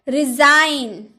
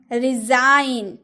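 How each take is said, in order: Both takes have the same delivery.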